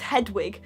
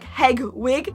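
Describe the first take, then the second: First: The middle consonant sounds like a d. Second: The middle consonant sounds like a g. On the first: The speaker calls it right. "you do know it's Hedwig" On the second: The speaker calls it wrong. "I always thought it was Hedwig, like Hegwig"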